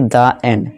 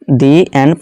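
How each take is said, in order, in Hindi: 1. 'The' को छोटे 'uh' स्वर के साथ बोला जाता है। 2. 'The' को लंबे 'ee' स्वर के साथ बोला जाता है। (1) "ना कि द एंड" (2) "इसे भी दी एंड प्रोनाउंस करेंगे"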